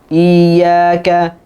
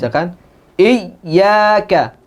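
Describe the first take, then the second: First: The doubled y is weak, like a long vowel. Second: The doubled y is overpressed and the voice breaks. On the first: "Kebanyakan tasydidnya tidak terlalu nampak. ... seolah-olah seperti dipanjangkan" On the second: "berlebihan, ... i sampai suaranya terputus"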